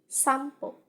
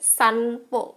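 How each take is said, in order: First: An m sound comes before the p. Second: An n sound comes before the p. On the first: "dalam bahasa Jepang, ini kita baca sampo" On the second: "kalau kita baca dalam bahasa Indonesia, bacaannya sanpo"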